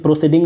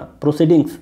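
First: "प्रोसीडिंग" stopping at ng, no s; singular without final s. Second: "प्रोसीडिंग्स" closed with an audible s; plural with final s. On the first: Teacher showing what not to read, final s missing. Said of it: "सिर्फ प्रोसीडिंग नहीं पढ़ना". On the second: Teacher correcting the reading, final s sounded. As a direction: say "प्रोसीडिंग्स" with s after ng. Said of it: "एस भी आता है". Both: Shown as a demonstration.

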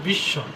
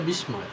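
First: "বিস্ময়" said as bish-shoy, silent m; doubled consonant. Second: "বিস্ময়" said as bis-moy, m sounded; spelling pronunciation. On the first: Teacher giving learners the real pronunciation, "বিস্ময়" as bish-shoy. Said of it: "আসলে বিস্ময়". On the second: Teacher showing how many people misread it, "বিস্ময়" as bis-moy. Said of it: "অনেকে পড়ে বিস্ময়". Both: Shown as a demonstration.

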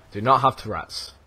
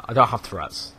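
First: "do NOT have Tourette's", NOT spelled out firmly; emphatic denial. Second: Said in the usual way. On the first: Real, not acted. Gamer correcting viewers' assumption, firm stress on "not". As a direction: lean on "not" in place of a contraction.

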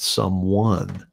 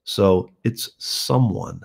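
First: "someone" drawn out slowly, stressed the wrong way. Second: "someone" said slowly with the stress placed right. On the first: Songwriter contrasting the stress, slow mock wrong syllable. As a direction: show the stress to avoid in "someone". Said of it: "not someone". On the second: Songwriter teaching the stress, slowly marking the right syllable. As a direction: show where the weight in "someone" goes. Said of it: "putting the emphasis on the right syllable". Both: Shown as a demonstration.

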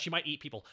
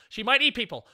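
First: Said in the usual way. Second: Alarmed. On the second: Real, not acted. Panics over game character.

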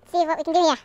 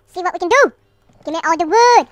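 First: Somewhat loud, lively remark; lively but controlled; raised voice. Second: Loud, higher, demanding yell; playful full-volume demand; hammed-up shout. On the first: Real, not acted. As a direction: say it up and projected, short of shouting. First, milder take. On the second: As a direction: shout it with the last word punched up. Repeats it louder, demanding wood.

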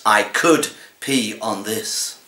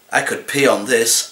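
First: "I could pee on this" slowed right down with weight on "could"; slow menacing repeat. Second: Said in the usual way. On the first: Acted. Cat on owner's lap savouring the threat, slow stress on "could". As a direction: drag out "could", then let "pee on this" land slowly.

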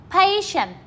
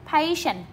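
First: Patient said higher, stress on PA; emphatic model word. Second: Said in the usual way. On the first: Shown as a demonstration. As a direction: lift PA in Patient for the class. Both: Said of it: "chúng ta đọc lại nha".

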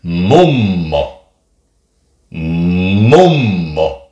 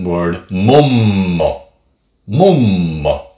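First: Mummo with the mm held long; long Finnish m. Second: Mummo with a long humming mm; elongated mm. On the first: Teacher showing the long m sound in mummo. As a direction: stretch the m in mummo, mummmo. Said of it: "The long sound of that would be". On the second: Teacher stretching the mm in mummo for learners. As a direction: draw out the mm in mummo, slowly. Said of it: "elongate the sound of mm". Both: Shown as a demonstration.

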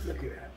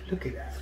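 Both takes have the same delivery.

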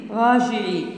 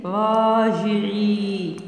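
First: Said in the usual way. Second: "راجعي" with every long vowel held; slow dictation. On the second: Shown as a demonstration. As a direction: draw out "راجعي" almost in a chant. Teacher dictates stretched word.

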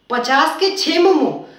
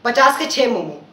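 First: Slow disbelieving repeat of पचास के छः momo; stunned customer repeating the price slowly; incredulous echo. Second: Said in the usual way. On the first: Acted. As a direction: drag out पचास के छः momo as if cheated. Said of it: "नहीं, नहीं भैया".

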